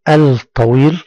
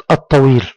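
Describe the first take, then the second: First: "الطويل" as al-tawil, l wrongly sounded; wrong pronounced lam. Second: "الطويل" as at-tawil, doubled t and no l; correct silent lam. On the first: Teacher shows pupils the mistake, l voiced in "الطويل". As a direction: slowly mispronounce "الطويل" with a clear l before the t. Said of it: "يكون نطقا خاطئا". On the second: Teacher models the word, silent lam in "الطويل". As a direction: glide from the alef straight into a doubled t in "الطويل". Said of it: "ننتقل من الألف إلى الطاء". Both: Shown as a demonstration.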